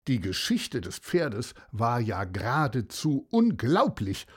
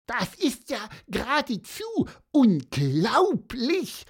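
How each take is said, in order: First: Said in the usual way. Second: A touch of amazement, rising on unglaublich; Pieper's wide-eyed echo of the narrator; lightly voiced Pieper, amazed. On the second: Pieper marvels at the seahorse's story, mildly amazed.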